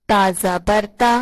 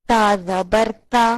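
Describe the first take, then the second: The two takes are said the same way.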